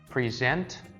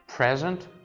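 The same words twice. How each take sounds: First: The stress is on the second syllable. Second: The stress is on the first syllable. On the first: "second part" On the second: "first part"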